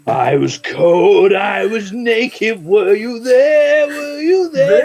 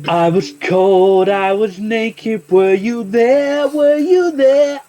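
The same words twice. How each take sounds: First: It is said in a scary voice. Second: It is said in a normal voice.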